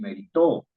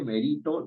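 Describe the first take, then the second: First: The stress is on the last syllable. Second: The stress is on the middle syllable. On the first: "ni meritó" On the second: "Uno no dice merito"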